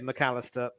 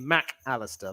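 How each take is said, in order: First: Mac runs straight into Allister. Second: Mac is set apart from Allister. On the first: This is the Scottish or British way of saying the name. "but I still say" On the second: This is the usual Argentine way of saying the name. "they separate the Mac and the Callister, so it's normally"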